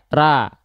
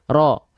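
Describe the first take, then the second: First: Thin, with a plain a vowel and no rounding. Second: An o vowel made by rounding the lips. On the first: "kalau kita tidak mengangkat pangkal lidah, bunyi vokalnya harus A" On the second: "sengaja membulatkan atau memonyongkan mulut"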